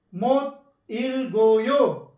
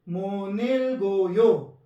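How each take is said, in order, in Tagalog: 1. Bawat pantig ay binibigkas nang hiwalay, ayon sa nakasulat. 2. Pinag-uugnay ang mga pantig at nagbabago ang tunog. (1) "Kapag tayo po yung nagbasa nito" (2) "Pero pag mga Korean, ganito po yung basa nila"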